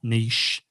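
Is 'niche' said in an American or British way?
British. It is said with a British pronunciation. "and not niche"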